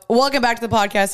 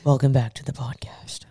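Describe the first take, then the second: First: It is said in her own normal voice. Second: It is said in a put-on deep man's voice.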